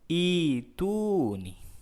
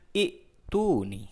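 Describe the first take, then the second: First: The second hamzah sound is dropped. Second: Both hamzah sounds are pronounced. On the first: "dihilangkan uh, yang kedua biar lebih ringan, dibaca menjadi" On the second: "bunyi tulisan"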